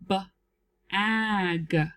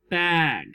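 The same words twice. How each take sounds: First: The word is split into two parts with a break. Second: The word is said smoothly as one unit. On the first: "Let's sound it out together" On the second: "Blend it"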